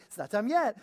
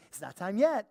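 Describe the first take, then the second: First: High, loud and cheery; perky. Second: Bright, chipper and louder; perky. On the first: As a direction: chirp it with a smile. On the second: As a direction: sing it out cheerfully. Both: Shown as a demonstration. Telling the dog to wait, all perky. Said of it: "I say it all perky".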